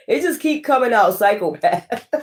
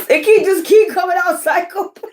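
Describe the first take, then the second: First: Said in the usual way. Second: Much higher, squealed through giggles; laughing. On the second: Real, not acted. Tarot reader repeating the card's word, squealing with laughter. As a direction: say it while cracking up in disbelief.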